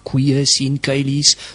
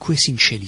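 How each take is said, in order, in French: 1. Il utilise la prononciation restituée du latin classique. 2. Il utilise la prononciation traditionnelle du latin d'église. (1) "la prononciation restituta" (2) "ils se mettent à réciter leur prière"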